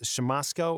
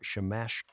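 First: The middle consonant is a plain 's' sound. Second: The middle consonant is an 'sh' sound. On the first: The speaker calls it wrong. "Is it pronounced Shamosko" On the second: The speaker calls it right. "I believe it is Shamashko"

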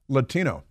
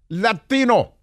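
First: It is said with a plain English accent. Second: It is said with a thick Spanish accent. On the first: The speaker calls it right. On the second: The speaker calls it wrong. "Suddenly you've got a thick accent, Spanish accent"

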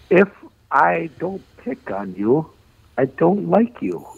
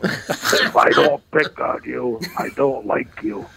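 First: The voice is lighter and not nasal. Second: The voice is deeper and nasal. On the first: "I can do it" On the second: "Should I use a deeper voice? ... I'll plug my nose and try it again"

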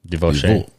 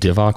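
First: The word is said in a French accent. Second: The word is said in a plain accent.

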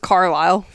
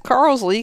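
First: The name ends with an 'aisle' sound. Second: The name ends with an 'ee' sound. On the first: The speaker calls it right. "And the name is Carlisle" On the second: The speaker calls it wrong. "I just read it as Carlsley because that's how she pronounced it"

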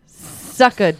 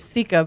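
First: The first syllable sounds like 'suck'. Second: The first syllable sounds like 'see'. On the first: The speaker calls it wrong. "but I'm going to be going with sucka" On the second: The speaker calls it right. "It's actually sika"

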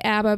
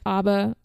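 First: It is said with an American pronunciation. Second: It is said with a Swedish pronunciation. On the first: "I'm going to say ABBA because I'm American" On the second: "It's pronounced ABBA"

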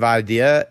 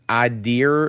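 First: It ends in a plain vowel without R. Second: An R sound is added at the end. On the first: The speaker calls it right. "it's idea" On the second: The speaker calls it wrong. "There's no R in this word"

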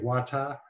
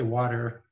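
First: It is said in a Trinidadian accent. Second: It is said in a Canadian accent. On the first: "they would say wata" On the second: "I would say water"

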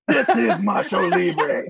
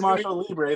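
First: It is said in a put-on Macho Libre voice. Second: It is said in his ordinary, unaltered voice.

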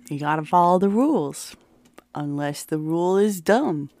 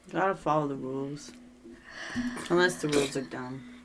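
First: It is said louder, for everyone to hear. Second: It is said at normal, quieter volume.

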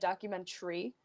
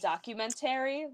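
First: It has a standard, non-regional pronunciation. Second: It has an upstate New York pronunciation. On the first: "I don't say documentary" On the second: "I say elementary and documentary. ... that's like an upstate New York thing"

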